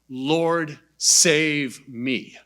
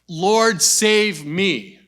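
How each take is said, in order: First: It is said slowly and deliberately. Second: It is said quickly and urgently.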